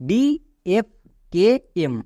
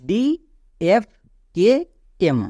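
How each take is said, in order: No difference in how they are said.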